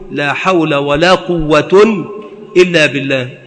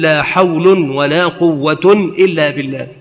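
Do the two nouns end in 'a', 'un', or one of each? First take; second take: mixed; both un. First: First noun ends in 'a', second in 'un'. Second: Both nouns end with a nunated 'un' ending. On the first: The first negation governs its noun; the second is cancelled. "إعمال الأولى وبناء ما يليها وإلغاء الثانية ورفع ما بعدها" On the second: Both negations are cancelled and the nouns are nominative. "إلغاء المكررتين ورفع ما بعدهما"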